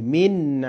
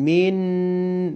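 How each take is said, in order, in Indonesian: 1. Bunyi n di akhir ditekan tapi tidak ditahan. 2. Bunyi n di akhir ditahan dan dipanjangkan. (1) "ditekan tapi enggak pakai ditahan" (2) "bukan min"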